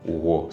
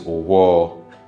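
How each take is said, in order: First: The word is said with a low tone. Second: The word is said with a high tone. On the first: It means knife. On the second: It means tomorrow.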